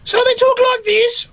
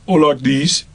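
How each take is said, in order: First: Very high squeaky Black Country character voice; Black Country accent. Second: Black Country accent. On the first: Actor demonstrating one of two puppet characters, high Black Country voice. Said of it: "both Big and Small are from the Black Country". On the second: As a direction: drop to the second puppet's Black Country voice. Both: Shown as a demonstration.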